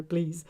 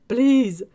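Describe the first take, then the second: First: Said in the usual way. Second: Please! shouted much louder and higher, falling at the end; loud pleading please. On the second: Shown as a demonstration. Begging the chat for separate flavors, loud mock plea. Repeating a chat comment for emphasis.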